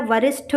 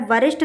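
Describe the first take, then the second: First: वरिष्ठ ending in aspirated ṭh; correct pronunciation. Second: वरिष्ठ ending in unaspirated ṭ; wrong pronunciation. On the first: Teacher gives the right ending, aspirated ṭh. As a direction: puff air on the last sound of वरिष्ठ. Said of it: "टा और ठा में यही difference". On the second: Teacher shows the wrong ending, unaspirated ṭ. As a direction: drop the breath from the ṭh of वरिष्ठ. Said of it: "वरिष्ठ नहीं होता है". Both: Shown as a demonstration.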